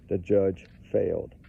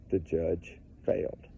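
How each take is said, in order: First: The judge failed with a firm falling stress on judge; firm repeat. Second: Low, soft and slow, letting it sink in; quiet grave statement. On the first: Repeating to viewers the judge failed, firmly stressed. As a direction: lean on judge and drop the tune at the end. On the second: Telling viewers the judge failed, quiet and slow. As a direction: say it quietly and slowly, like a verdict. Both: Shown as a demonstration. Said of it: "That's important".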